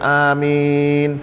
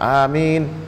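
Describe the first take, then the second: First: The word is said slowly and drawn out. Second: The word is said quickly and short. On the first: "mau dipanjangkan amin, boleh juga" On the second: "mesti cepat amin"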